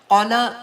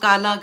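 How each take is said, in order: First: The first vowel is an 'au' diphthong. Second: The first vowel is a plain long 'a'. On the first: The speaker calls it right. "कौला कितनी दफ़ा आता है कुरान में" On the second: The speaker calls it wrong. "उसको काला करके पढ़ जाते हैं"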